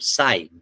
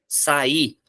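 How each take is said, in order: First: "Sai" as one syllable; vowels joined. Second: "saí" in two syllables, sa-Í; vowels separated. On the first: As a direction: glue the i onto the a in "Sai". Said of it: "o A e o I tá junto". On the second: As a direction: split the vowels in "saí", stressing the i. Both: Shown as a demonstration.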